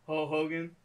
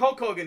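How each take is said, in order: First: The name is said in a slurred rapper imitation. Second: The name is said in a plain normal voice.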